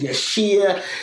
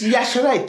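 First: The name ends without a 'ray' sound. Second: The name ends with a 'ray' sound. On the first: The speaker calls it wrong. "I get called Yashir" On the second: The speaker calls it right. "it's Yashere. Think Yash. Hooray!"

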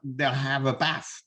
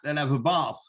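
First: It is said in a northern English way. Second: It is said in a southern English way. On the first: The speaker lives further north. "above a certain place in these aisles" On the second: The speaker lives further south. "Below that"

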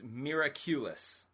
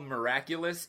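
First: The word has an odd, unusual pronunciation. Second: The word has its plain English pronunciation. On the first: "They pronounce it so weird" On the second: "It's not even called Miraculous"

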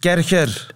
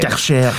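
First: The name is said German-style, like 'kerker'. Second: The name is said French-style, like 'karsher'. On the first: "Gewoon zoals de Duitsers" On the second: "In Frankrijk zegt men Karcher"

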